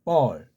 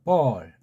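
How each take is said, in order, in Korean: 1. 이 이름은 예사소리이고, b와 비슷한 자음으로 시작합니다. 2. 이 이름은 예사소리이고, b와 비슷한 자음으로 시작합니다.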